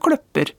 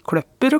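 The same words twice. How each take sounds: First: The word is said with pitch accent tone 2. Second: The word is said with pitch accent tone 1. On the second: "tonem 1"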